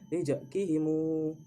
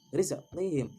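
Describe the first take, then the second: First: The final m is followed by a long u. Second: The word ends on a plain final m.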